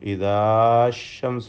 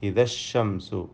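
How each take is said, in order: First: The vowel before the next word is held long. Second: The vowel before the next word is kept short. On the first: The speaker calls it wrong. "ഇദാശംസു എന്ന് പറയില്ല" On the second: The speaker calls it right. "ഇദാ എന്ന അലിഫിനെ കളയണം"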